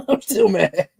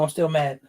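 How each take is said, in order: First: Slow, laughing through the words; chuckling as he admits he's still mad. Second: Said in the usual way. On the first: Real, not acted. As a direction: laugh it out while saying it.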